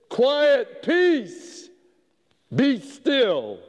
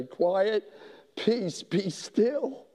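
First: High, loud rebuke to the wind; Jesus rising in the boat to command the storm; commanding shout. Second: Soft, slow and tender; preacher gently promising peace to the troubled man; gentle calm. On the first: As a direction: order the storm to stop. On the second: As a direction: hush the storm softly. God calming the man's storm. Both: Acted.

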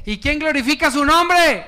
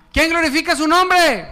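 First: Said in the usual way. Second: Shouted call. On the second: Shown as a demonstration. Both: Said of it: "No, diga, "Yo, aleluya".

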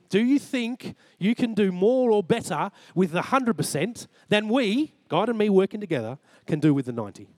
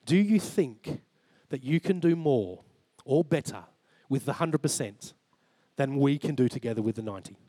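First: "more or better" and "we" pushed high; retold question, high and insistent, falling at the end; emphatic repeated question. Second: Measured, pausing between phrases; God's measured question. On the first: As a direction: drive home "we", then drop down at "ninety". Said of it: "And he reminded me again". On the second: Retold or imitated. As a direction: put the question calmly, phrase by phrase. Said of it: "he just said, "[name]".

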